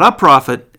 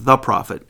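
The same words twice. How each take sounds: First: "a prophet" with "a" said as the indefinite, set against "the"; "a prophet", a loud "a" as the wrong reading; contrast a and the. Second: "the prophet" with "the" punched, falling after; stress on THE. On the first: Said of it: "it says the prophet". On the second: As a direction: lean hard on "the" in "the prophet". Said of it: "Not a prophet". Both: Shown as a demonstration.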